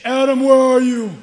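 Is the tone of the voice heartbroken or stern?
stern. It is said in a stern, demanding tone. The speaker is demanding an account. The speaker calls it wrong. "He didn't say"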